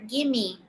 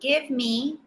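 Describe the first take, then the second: First: It is blended into one word, gimme. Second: It is said as two separate words. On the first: "often we hear gimme" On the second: "instead of saying give me"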